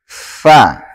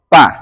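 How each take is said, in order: First: The letter starts with an 'f' sound. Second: The letter starts with a 'p' sound. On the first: The speaker calls it right. "harus baca dengan fa" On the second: The speaker calls it wrong. "sebagian di antara kita mengucapkan huruf fa"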